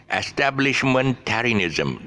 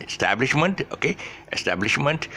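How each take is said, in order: First: "Establishmentarianism" slow, high, stressed on TAR, then falling; stress shifted back. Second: "Establishment" higher, stressed early on TAB, rising at the end; root word stress. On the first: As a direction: hit TAR late in "Establishmentarianism", stretching the word. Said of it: "that's where the, the shift is at the back". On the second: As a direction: punch TAB in "Establishment" and lift the ending. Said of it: "the real word is establishment". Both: Shown as a demonstration.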